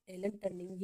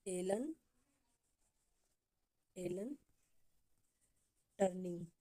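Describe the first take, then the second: First: Said in the usual way. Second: One word at a time, long pauses; slow dictation. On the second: Shown as a demonstration. Teacher dictating a name for copybooks, word by word. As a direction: leave time to write after each word. Dictating after asking students to write.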